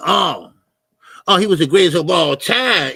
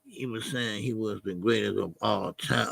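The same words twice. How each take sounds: First: Sudden loud "oh" of understanding; loud realization. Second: Low, subdued repeat to himself; quiet pondering. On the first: Streamer suddenly gets what the chatter meant, loud realization. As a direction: burst out as it finally clicks. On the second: Streamer working out what a chatter meant, quiet pondering. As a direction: mull it over softly in a low voice. Repeating the point before it clicks. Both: Real, not acted.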